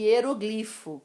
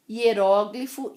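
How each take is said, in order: First: "hieroglifo" as ie-ro-GLI-fo; "hieroglifo" stressed next to last. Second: "Hieróglifo" as ie-RÓ-gli-fo, RÓ loud; "Hieróglifo" stressed third from last. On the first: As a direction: land hard on the GLI of "hieroglifo". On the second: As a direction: punch the open RÓ of "Hieróglifo". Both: Shown as a demonstration. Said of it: "As duas pronúncias são corretas".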